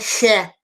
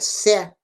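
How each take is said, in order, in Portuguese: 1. A palavra começa com som de sh. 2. A palavra começa com som de s. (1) "não é xé" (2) "É sé"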